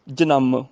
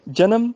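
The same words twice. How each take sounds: First: ਜਨਮ said "ja-namm", lower, second syllable held; with tippi. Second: ਜਨਮ said "ja-nam", short and even; without tippi. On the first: Teacher shows the difference, ਜਨਮ as long "janamm". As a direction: take extra time on the m of ਜਨਮ. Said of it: "ਉਦੋਂ time ਜ਼ਿਆਦਾ ਲੱਗਦਾ". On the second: Teacher shows the difference, ਜਨਮ as short "janam". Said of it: "ਫਰਕ ਪਿਆ ਨਾ". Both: Shown as a demonstration.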